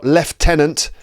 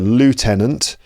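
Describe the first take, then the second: First: It is said with a British pronunciation. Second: It is said with an American pronunciation. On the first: "That's in British English" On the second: "and in America"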